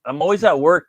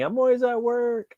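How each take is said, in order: First: Said in the usual way. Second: High, slow mock catchphrase voice; his own running joke, said high and drawn out. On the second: Shown as a demonstration. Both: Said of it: "That's, like, my, like, thing".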